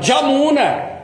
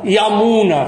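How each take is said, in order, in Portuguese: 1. A palavra começa com som de j. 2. A palavra começa com som de y. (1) "fala Jamuna" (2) "O bengali não fala Yamuna"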